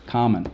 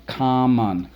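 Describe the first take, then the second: First: Said in the usual way. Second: "common" drawn out as COM, MON; two separate beats on "common"; syllable by syllable. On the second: Shown as a demonstration. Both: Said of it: "And the last one".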